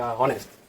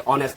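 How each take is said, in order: First: The word starts with an audible h sound. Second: The word starts directly with the vowel sound. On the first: The speaker calls it wrong. "बहुत सारे लोग इसको pronounce करते हैं कि ऑनेस्ट" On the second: The speaker calls it right. "नहीं ये ऑनेस्ट है"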